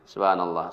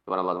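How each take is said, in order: First: It is said at a moderate pace. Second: It is said fast, mumbled like gargling.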